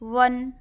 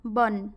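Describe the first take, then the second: First: The word begins with a v sound. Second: The word begins with a b sound. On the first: This is the Hindi pronunciation. "व का उच्चारण हिंदी में व होता है" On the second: This is the Odia pronunciation. "Odia में क्या बोलेंगे"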